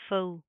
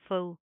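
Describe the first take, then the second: The two takes are said the same way.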